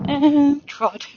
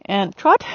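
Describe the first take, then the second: First: Long high "and", TROT dropped; downward transition command. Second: TROT rising sharply at the end; upward transition command. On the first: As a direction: draw out "and", let "trot" fall. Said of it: "my voice goes down". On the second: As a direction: lift "trot" to send the horse on. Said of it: "the voice goes up". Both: Shown as a demonstration.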